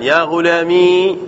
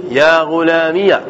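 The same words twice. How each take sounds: First: يا غلامي slowly, ending on a long i with no vowel after; silent ya. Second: يا غلامي said as ghulamiya, the ya carrying an a; voweled ya. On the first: Teacher listing the two ya forms, slow with a silent ya. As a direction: stop right on the i of غلامي. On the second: Teacher listing the two ya forms, slow with ya opened to ya-a. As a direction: open the final ya into ya-a. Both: Shown as a demonstration. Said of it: "بإضافة الياء عندنا لغتان".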